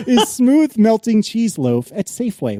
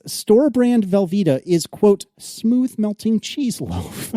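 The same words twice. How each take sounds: First: Slow, higher retry at a straight reading; barely straight face. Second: Slow, high-pitched reading on the verge of laughing; barely straight face. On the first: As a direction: read it deliberately, holding back laughter. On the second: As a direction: draw out the product name, fighting a laugh. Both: Real, not acted. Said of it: "couldn't even say it with a straight face".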